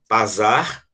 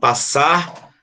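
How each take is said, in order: First: The middle consonant is not a plain S sound. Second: The middle consonant is a plain S sound. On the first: The speaker calls it wrong. "para você não falar pasar aqui" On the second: The speaker calls it right. "para manter o som de S, você tem que dobrar ele"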